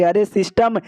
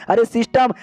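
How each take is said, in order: First: Said in the usual way. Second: Higher, pleading repeat of अरे system; a touch of whiny desperation; mock tearful plea. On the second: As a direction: call अरे system again, half-crying and higher. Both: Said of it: "हमारे मेकट को रोना आ जाता है".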